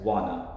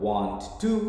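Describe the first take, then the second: First: It is said as one short contracted word. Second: It is said as two full separate words. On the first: "pronounced as wanna" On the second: "want to can be pronounced as"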